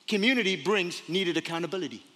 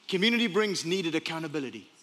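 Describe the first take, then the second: No difference in how they are said.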